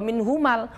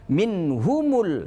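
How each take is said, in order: First: The mim is followed by an a vowel. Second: The mim is followed by a u vowel. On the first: The speaker calls it wrong. "tidak boleh" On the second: The speaker calls it right. "dengan dhammah"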